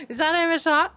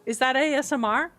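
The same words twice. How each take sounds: First: Letters jumbled as A M S R; garbled A M S R, asked with a rise; flubbed acronym. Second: Letters spelt out clearly as A S M R; careful A S M R, asked with a rise; corrected acronym. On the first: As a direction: stumble over the acronym A M S R. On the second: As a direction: get A S M R right this time. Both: Real, not acted. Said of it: "I really did try to say it correctly the second time".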